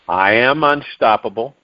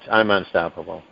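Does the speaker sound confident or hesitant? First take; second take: confident; hesitant. First: It is said firmly, with strong conviction. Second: It is said weakly, with hesitation and stumbling. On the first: The speaker truly believes it. The speaker calls it right. "with a strong conviction in your voice" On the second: The speaker does not really believe it. The speaker calls it wrong. "not like"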